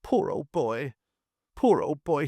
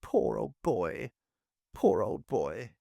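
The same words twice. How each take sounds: First: Put-on a higher, tearful wail over the wounded boy; mild higher-pitched blubbering, in tears. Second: Slow, numbed murmur of the same words; stuck on the phrase, paralysed by horror; slow, dazed repetition, barely there; dazed repeating. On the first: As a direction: weep the words out, close to breaking. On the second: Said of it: "He could only repeat". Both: A narrator's reading.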